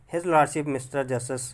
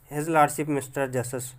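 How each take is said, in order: Both takes have the same delivery.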